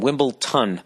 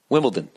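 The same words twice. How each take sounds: First: The last syllable is said with a t sound. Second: The last syllable is said with a d sound. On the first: The speaker calls it wrong. "Yet yet another word that I've been mispronouncing. Uh, T O N" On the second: The speaker calls it right. "But it's Wimbledon, D O N"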